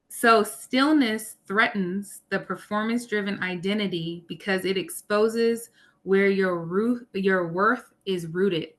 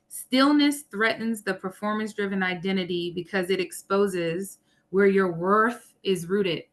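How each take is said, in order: First: It is said really slowly. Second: It is said at normal speed.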